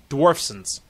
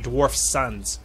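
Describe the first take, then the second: First: It is said quickly as one word. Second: It is said slowly as two words.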